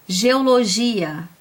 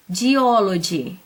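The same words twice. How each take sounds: First: Said in the usual way. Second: "geology" drawn out slowly with English sounds; "geology" slow and careful, the English way. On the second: Shown as a demonstration. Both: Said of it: "Olha essa outra".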